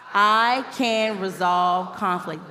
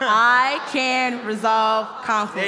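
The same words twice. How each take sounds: First: It is said plainly, without extra force. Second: It is said forcefully, with strong conviction.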